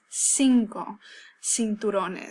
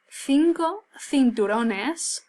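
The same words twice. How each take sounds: First: The c sounds exactly like an s. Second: The c is said in the Spain style. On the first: "the preferred pronunciation is cinco cinturones. So it sounds exactly like an S" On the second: "my pronunciation of the C's and the Z's are going to be particular to Spain"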